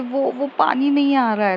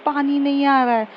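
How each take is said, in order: First: Said in the usual way. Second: Slightly raised repeat after "क्या?"; repeated a bit louder. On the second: Acted. Smriti repeating to her roommate who didn't catch it, slightly raised. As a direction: say it again a touch higher, so she hears. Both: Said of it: "क्या?".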